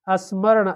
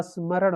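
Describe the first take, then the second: First: स्मरण said as "asmaran" with an extra "a" sound before the "s"; wrong spelling sounded out. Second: स्मरण said cleanly as "smaran", with no sound before the "s"; correct spelling sounded out. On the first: Teacher shows students the wrong form of स्मरण. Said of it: "स्मरण ऐसे नहीं होता है". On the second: Teacher gives exam students the correct form of स्मरण. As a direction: say स्मरण the correct way, starting straight on "s". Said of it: "ऊपर र नहीं होता है". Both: Shown as a demonstration.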